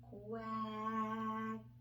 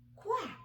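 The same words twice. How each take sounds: First: The word is said slowly, sounds drawn out. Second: The word is said quickly as one unit. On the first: "Let's blend it together" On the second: "Let's say it fast"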